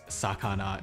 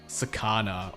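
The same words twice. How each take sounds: First: It is said with Japanese pronunciation. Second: It is said with an American English accent. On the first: The speaker calls it right. "instead of sakana" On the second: The speaker calls it wrong. "it's like sakana"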